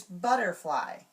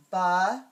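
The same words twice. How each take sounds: First: Said in the usual way. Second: "Butterfly" in three loud pieces with long gaps; broken into syllables. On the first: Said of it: "not gonna give the word". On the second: Shown as a demonstration. Teacher giving only the parts to students, syllable by syllable. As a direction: break "Butterfly" apart: bu, ter, fly. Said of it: "just gonna give those parts".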